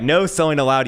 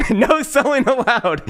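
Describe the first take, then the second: First: Said in the usual way. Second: High, laughing sarcastic No selling allowed; mock hype. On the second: Mocking the no-sell token, high sarcastic laugh-line.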